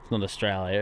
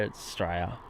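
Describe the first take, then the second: First: Said in the usual way. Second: "Australia" squashed into "Straya"; shortened country name. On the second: Shown as a demonstration. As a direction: say "Australia" as "Straya", lower and softer, dropping the first syllable. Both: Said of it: "we've shortened our own country's name".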